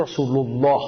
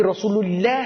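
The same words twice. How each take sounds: First: الله in رسول الله said with a thick, emphatic lam and a deep, full aa; heavy Arabic Allah. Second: الله in رسول الله said with a thin, light lam and a short le; wrong light Allah. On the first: Preacher showing the correct recitation says رسول الله with a heavy, deep الله. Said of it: "اما قبلش او باشه". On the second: Preacher mocking the mistake says رسول الله with a thin, light الله. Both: Shown as a demonstration.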